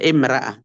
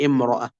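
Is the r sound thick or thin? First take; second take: thin; thick. First: The r is pronounced thin and light. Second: The r is pronounced thick and heavy. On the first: The speaker calls it wrong. "Tidak dibaca imra'ah" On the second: The speaker calls it right. "maka tetap dibaca tebal"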